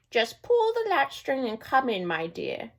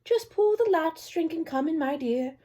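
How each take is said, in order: First: Slow, fading put-on grandmother voice; a wolf luring her in, slow and sweet; wolf's fake granny. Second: Put-on high old-lady voice, softening at the end; a trusting granny welcoming her visitor; kindly grandmother. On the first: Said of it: "trying to sound like grandmother". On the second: Grandmother in bed inviting the girl in, high and kind. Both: A narrator's reading.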